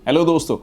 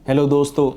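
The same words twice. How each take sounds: First: The greeting is said with lively excitement. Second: The greeting is said flatly, without excitement. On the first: The speaker wants to connect with the listener. The speaker calls it right. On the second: The speaker is just reading a script. The speaker calls it wrong.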